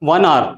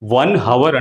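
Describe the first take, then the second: First: Hour starts with a vowel sound. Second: Hour starts with an h sound. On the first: The speaker calls it right. "Proper ఇంగ్లీష్లో చెప్పాలంటే one అవర్" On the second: The speaker calls it wrong. "South Indians చాలా వరకు one అవర్ అంటాం"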